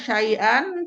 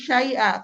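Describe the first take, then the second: First: The word ends with an n sound. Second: The word ends with a lengthened a vowel. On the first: The speaker calls it wrong. "jangan syai'an" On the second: The speaker calls it right. "tapi syai'a"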